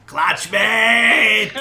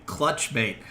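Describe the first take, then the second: First: Full-throated, high lizard-creature shriek; screaming. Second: Said in the usual way. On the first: Acted. Game master as lizard creature recognizing a friend, screaming. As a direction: scream it out loud, drawing out the last word. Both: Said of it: "and it's screaming".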